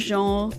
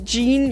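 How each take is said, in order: First: The name is said with a French pronunciation. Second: The name is said with an American English pronunciation. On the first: The speaker calls it right. "like Jeannot or Jean or Jeannette, then you pronounce it" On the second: The speaker calls it wrong. "there's a English speaking person who says Jean, you just kind of twitch a little"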